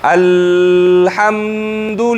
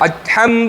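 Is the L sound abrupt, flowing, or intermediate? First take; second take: flowing; abrupt. First: The L flows on freely without stopping. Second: The L is stopped abruptly with no flow. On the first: "مثلا رخوه کوس" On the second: "دې کې زه شدت کوم"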